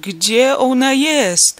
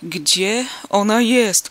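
First: Much higher, much louder, very slow cry; desperate shout. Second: Louder, very slow, strangled shout; choked cry. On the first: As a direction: scream it in panic. (rozpaczliwy, wysoki krzyk) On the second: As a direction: force the cry through a tight throat. (zdławiony krzyk) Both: A narrator's reading. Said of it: "krzyknął zdławionym głosem".

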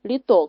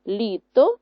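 First: ЛіТО with the last syllable stressed; li-TO, loud ending; wrong stress on second. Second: ЛІто with the first syllable stressed; LI-to, loud front syllable. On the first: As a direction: punch ТО in літо. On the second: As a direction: punch ЛІ in літо. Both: Shown as a demonstration. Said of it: "мало інший наголос".

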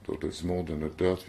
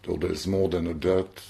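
First: "doubt" stressed with a rising tune; scanning the line with the beat on "doubt"; shifted stress demo. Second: "more" stressed with a rising tune; scanning the line with the beat on "more"; stress demo. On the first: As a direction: land the beat on "doubt" and lift it. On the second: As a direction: lean on "more" and lift it. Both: Shown as a demonstration. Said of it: "si on prend un vers comme".

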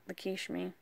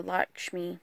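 First: Lakshmi said roughly luh-KEESH-mee, stressed on KEESH; unsure pronunciation. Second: Lakshmi said LAHK-shmee, in two syllables; second pronunciation try. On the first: Country speaker trying a goddess's name, Lakshmi as luh-KEESH-mee. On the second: Correcting herself on a goddess's name, Lakshmi as LAHK-shmee. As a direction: say Lakshmi with an open first vowel, LAHK-shmee. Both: Real, not acted. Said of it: "pronounce everything correctly".

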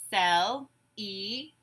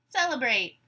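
First: "Celebrate" in three slow, separate beats; syllable by syllable. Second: Said in the usual way. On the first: Shown as a demonstration. Teacher gives syllables to blend, "Celebrate" broken apart. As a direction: say "Celebrate" as cel, e, brate, pausing between. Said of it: "I will say syllables in a word". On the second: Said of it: "You say the whole word".

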